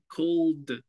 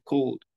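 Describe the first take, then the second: First: The final d sound is strongly exaggerated. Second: The final d sound is light and natural. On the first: "Yo lo pronuncio así tan marcado" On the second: "sin necesidad de exagerar tanto"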